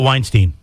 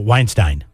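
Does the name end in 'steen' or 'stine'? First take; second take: steen; stine. First: The last syllable sounds like 'steen'. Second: The last syllable sounds like 'stine'. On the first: "you just said you were going to go Steen" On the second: "you pronounce it Wine, Stein"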